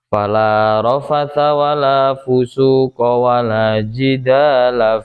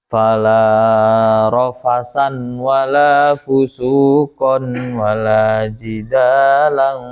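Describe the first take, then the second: First: All three nouns end in -a. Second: All three nouns end in -an. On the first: The speaker calls it right. "dibaca fathah semuanya" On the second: The speaker calls it wrong. "dibaca nasab keseluruhannya ... tidak boleh"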